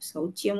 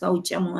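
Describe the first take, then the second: First: The middle sound is 'chya' with a y-glide. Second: The middle sound is a plain 'cha' without y-glide. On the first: The speaker calls it wrong. "శౌచ్యము గాదు" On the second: The speaker calls it right. "శౌచము అని ఉంది"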